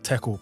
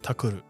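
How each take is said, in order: First: It is said with an English pronunciation. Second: It is said with a Japanese pronunciation. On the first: "tackle is like tackle" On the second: "but they say like takuru"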